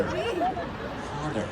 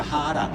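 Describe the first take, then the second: First: Harder with an overdone rolling R, high and drawn out; mock the American R in Harder; hammed-up American R. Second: Harder with no R, said hadder; Aussie hadder; Australian harder. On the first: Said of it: "So many R's". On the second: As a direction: drop the R Aussie style in harder. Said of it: "just be Australian". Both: Shown as a demonstration.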